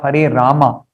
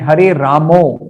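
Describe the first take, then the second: First: The final vowel of the last word sounds like "ah". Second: The final vowel of the last word sounds like "oh". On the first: It follows how the word is written. The speaker calls it right. "Hare Rama should be pronounced as Hare Rama" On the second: It follows the native Bengali way of speaking. The speaker calls it wrong. "Some devotees in Kirtan chant Hare Ramo"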